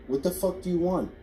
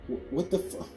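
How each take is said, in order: First: It is said in an angry, commanding tone. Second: It is said as a frightened whimper.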